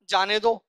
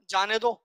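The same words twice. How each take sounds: No difference in how they are said.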